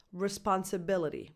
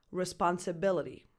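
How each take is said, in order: First: Responsibility with the BI syllable stressed. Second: Responsibility, the BI syllable stressed, falling at the end; Responsibility with clear stress on BI. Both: Shown as a demonstration. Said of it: "primary stress is on that B I".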